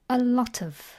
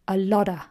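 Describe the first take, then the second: First: The t links into of, giving tuv. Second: The final f drops, giving lotta. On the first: "or unstressed, a lot of. The T collides with the O and joins it to make tuv" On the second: "Or even more unstressed, a lotta"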